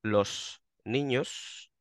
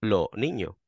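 First: "los niños" with every s clearly pronounced, slow; full s sounds. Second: "lo niño" with both final s simply dropped. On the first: Explaining what Andalusians do not say: slow, careful full s. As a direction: say "los niños" slowly with each final s fully sounded. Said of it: "yo no digo". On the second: Mocking how northerners hear Andalusian plurals: s dropped. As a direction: say "lo niño" with no s at all. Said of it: "comiéndome la S". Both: Shown as a demonstration.

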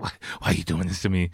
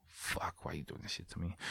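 First: Said in the usual way. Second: Barely audible mock anguish; hushed protest. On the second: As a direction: retell it under the breath, far softer. Retold inner protest to wife.

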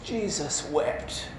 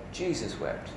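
First: Drawn-out, quiet exclamation of disbelief; mock expletive. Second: Said in the usual way. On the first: Someone reacts to something crazy going on, slow mock expletive. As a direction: say it slowly as an emphatic oath. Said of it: "just as a bit of an expletive". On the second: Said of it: "The shortest verse in the Bible".

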